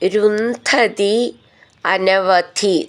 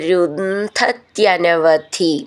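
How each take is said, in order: First: The two words are said separately. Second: The two words are run together.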